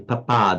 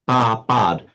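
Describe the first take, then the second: First: The vowel is cut short. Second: The vowel is held fully long. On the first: The speaker calls it wrong. "the English phonetics influence you like this papad" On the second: The speaker calls it right. "it's papad"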